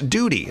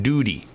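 First: The middle consonant is a clear t sound. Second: The middle consonant sounds like a soft d.

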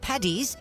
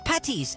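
First: The middle consonant sounds like a D. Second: The middle consonant sounds like a T. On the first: The speaker calls it wrong. "it's not Paddy's" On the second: The speaker calls it right. "It's Patty's, as in Patrick"

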